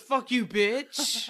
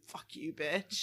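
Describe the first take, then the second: First: Drawn-out, slow retort; mock dog yell. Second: Low, soft and slow; a dog's private thought, muttered low and slow. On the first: Owner voicing Briggs yelling back at her, slow mock yell. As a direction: imitate a yelling dog, words stretched out slowly. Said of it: "when Briggs yells at something". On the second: Retold or imitated. Owner voicing what her sweet dog thinks, low slow aside. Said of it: "looks back and immediately thinks".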